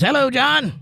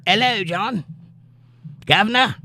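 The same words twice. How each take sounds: First: Said in the usual way. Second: High-pitched mock Cockney greeting; British "guv'nor" accent. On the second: Host reading Amy's hello to John aloud, mock British accent. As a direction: put on a playful British accent, 'ello and guv'nor. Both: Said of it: "you could type in an accent".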